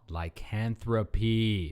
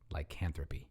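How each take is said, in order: First: It is said louder and drawn out. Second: It is said at normal loudness and speed.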